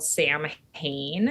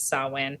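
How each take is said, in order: First: It is pronounced the way it is spelled. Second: It is pronounced the old traditional way. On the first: "It looks like it's spelled Sam Hain, and some people pronounce it that way" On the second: "the old pronunciation is Samhain"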